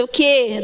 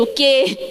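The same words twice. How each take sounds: First: Said in the usual way. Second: Do meu jeito. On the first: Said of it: "Do meu jeito". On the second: Retold or imitated. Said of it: "Do meu jeito: "O quê?".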